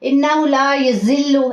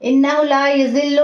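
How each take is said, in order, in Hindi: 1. व्यंजन सख्त है, सीटी जैसी सरसराहट के साथ। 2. व्यंजन नरम है, कोई सरसराहट नहीं। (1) "ऐसे नहीं पढ़ेंगे" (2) "नरमी से"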